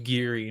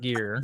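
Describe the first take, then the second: First: The name is said with two syllables. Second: The name is said with one syllable. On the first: The speaker calls it right. "His name's Geary" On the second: The speaker calls it wrong. "not Gear"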